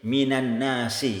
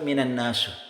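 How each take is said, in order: First: The last word ends in an i vowel. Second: The last word ends in a u vowel. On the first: The speaker calls it right. "Seperti di sini minan nasi" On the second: The speaker calls it wrong. "tidak boleh dibaca"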